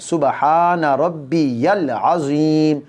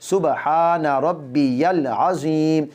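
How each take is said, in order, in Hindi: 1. यह पूरा पढ़ा जाता है, 'ya' आवाज़ रखकर। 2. यह पूरा पढ़ा जाता है, 'ya' आवाज़ रखकर।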